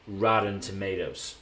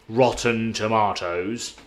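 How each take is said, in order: First: Tomatoes is said with an American pronunciation. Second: Tomatoes is said with a British pronunciation. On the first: "U S would be" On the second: "U K would be"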